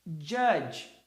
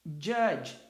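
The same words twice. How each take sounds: First: Judge said crisply, one syllable; English word judge. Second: Judge repeated, one syllable; English word judge. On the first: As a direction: model judge for the class. (pronúncia de "judge" em uma sílaba) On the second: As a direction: repeat Judge for students to copy. (repetição de "Judge") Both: Shown as a demonstration. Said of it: "A segunda".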